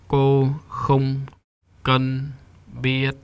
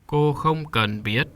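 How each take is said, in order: First: Each word is said on a flat, level pitch. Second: Each word carries its own rising or falling pitch. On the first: "Let's say it without the tones" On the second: "And now the tones"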